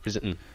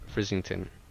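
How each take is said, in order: First: It is pronounced in a broad Cumbrian accent. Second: It is pronounced carefully and clearly. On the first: "The way I say it's very Cumbrian" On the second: "that that's me saying it very clearly"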